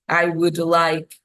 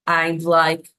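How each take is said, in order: First: The word would is said in full. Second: Would is shortened to a d sound.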